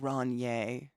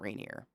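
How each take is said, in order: First: The name is said with an affected, posh vowel. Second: The name is said plainly, with a normal vowel. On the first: The speaker is mocking the cheap beer. "we'd call it Ronier... that's just the pretentious way" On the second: The speaker is being serious. "if you're being serious in Washington, it's Mount Rainier"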